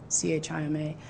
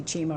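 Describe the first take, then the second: First: "C H I M A" letter by letter; name each letter separately in "C H I M A"; spelled-out acronym. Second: "chima" said as one word; acronym as word. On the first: Telling the audience either name works, "C H I M A" spelled out. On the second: Telling the audience either name works, "chima" as one word. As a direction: run the letters together as the word "chima". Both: Shown as a demonstration. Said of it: "if I say chima or C H I M A".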